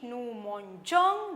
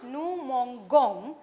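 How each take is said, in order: First: The g is said as a soft zh sound. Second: The g is said as a hard g sound. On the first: The speaker calls it right. "they have written E before the ending" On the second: The speaker calls it wrong. "without E it becomes"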